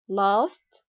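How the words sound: The vowel is said the British way.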